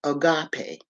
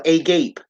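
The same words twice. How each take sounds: First: Agape in three syllables, "uh-GAH-pay"; agape stressed on the middle "GAH"; agape pronounced "ah-GAH-pay". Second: Agape as two syllables, "ay-GAPE"; agape with silent final e; agape as spelled. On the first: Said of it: "But you pronounce it". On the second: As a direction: say agape to rhyme with "cape". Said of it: "or agape". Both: Shown as a demonstration.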